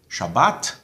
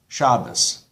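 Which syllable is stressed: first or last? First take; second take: last; first. First: The stress is on the last syllable. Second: The stress is on the first syllable. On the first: This is the modern Israeli pronunciation. "emphasis on the last syllable" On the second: "on the second last, um, second last syllable"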